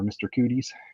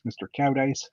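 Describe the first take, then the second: First: The name is said like 'Cooties'. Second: The name is said like 'Cowdice'. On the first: "or mister Cooties, if you want to" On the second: "Cowdice is the proper way to say it"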